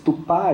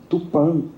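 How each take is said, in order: First: The final vowel is an open, oral a. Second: The final vowel is a closed, nasal a. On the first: The poet's written form departs from the usual pronunciation. The speaker calls it wrong. "escrito com A aberto" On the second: This was the more common pronunciation in Tupi. The speaker calls it right. "com A fechado, uh, nasalizado"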